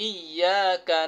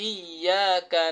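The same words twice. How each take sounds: Both takes have the same delivery.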